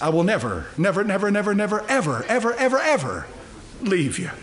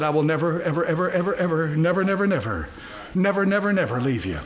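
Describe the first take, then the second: First: "never" and "ever" climb in pitch, then fall on "leave you"; emphatic repetition, building. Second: Chain "never" and "ever" in an even, insistent run; emphatic repetition. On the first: Shown as a demonstration. Preacher shows the Greek text's emphasis, emphatically building. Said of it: "It's emphatic in the Greek text". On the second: Retold or imitated. Preacher quotes God's promise to believers, emphatically. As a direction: repeat "never" and "ever" with steady weight, then drop on "leave you". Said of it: "He emphasizes it. It's emphatic".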